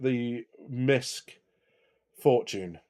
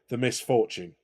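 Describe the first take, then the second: First: It is said slowly, split into parts. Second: It is said quickly, run together.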